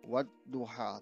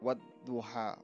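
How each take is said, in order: The two takes are said the same way.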